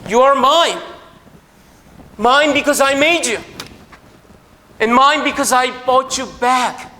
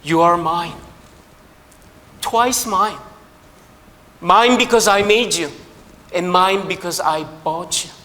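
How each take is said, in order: First: Higher, louder, very slow proclamation; preacher proclaims God's words, loud and slow; proclaiming loudly. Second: Slow, each mine leaned on; the boy cries out to his boat, slow and emphatic; child exclaiming. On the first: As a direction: call it out as God's claim on us. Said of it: "이 비유의 핵심은 바로 저 이야기". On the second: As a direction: savor every mine like a treasure found. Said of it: "소리 지릅니다". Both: Acted.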